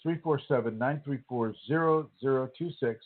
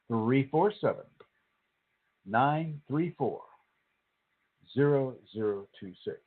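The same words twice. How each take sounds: First: The number is said at normal, faster speed. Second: The number is said more slowly.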